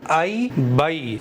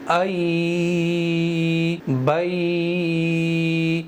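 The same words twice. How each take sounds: First: "ائی بئی" said short, without stretching; quick ai bai. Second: "ائی بئی" drawn out very long; wrongly stretched ai bai. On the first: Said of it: "یعنی جلدی پڑھ رہا ہوں". ("ائی بئی" جلدی، بغیر کھینچے) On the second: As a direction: drag out "ائی" and "بئی" like a common mistake. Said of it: "بہت سارے لوگ کھینچ کر کے پڑھتے ہیں". ("ائی بئی" کو غلط طور پر بہت کھینچ کر) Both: Shown as a demonstration.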